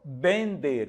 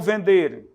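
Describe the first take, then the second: First: The first sound is a B sound. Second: The first sound is a V sound. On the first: The speaker calls it right. "O V tem som de B" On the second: The speaker calls it wrong. "ou melhor"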